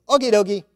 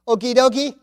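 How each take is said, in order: First: A light put-on Italian accent, higher and a bit louder; a hint of Italian, played for a laugh; mock Italian reply. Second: A playful hint of an Italian accent, higher, with a laugh; laughing Italian-flavoured okie dokie; mock Italian reply. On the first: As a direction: repeat Tim's stock answer in a jokey Italian lilt. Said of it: "that's what I get back from Tim". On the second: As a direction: toss off Tim's text in a jokey Italian lilt. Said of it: "This is a good Italian comment".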